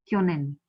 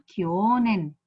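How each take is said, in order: First: Kyonen with a short o, lower and compact; short vowel. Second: Kyonen with the o dragged long, kyooonen; wrongly lengthened vowel. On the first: Teacher correcting the mistake, kyonen with short o. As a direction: keep the o in kyonen brief. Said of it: "It is kyonen". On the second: Teacher showing the mistake, kyonen with a long o. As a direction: stretch the o in kyonen. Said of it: "it is not kyonen". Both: Shown as a demonstration.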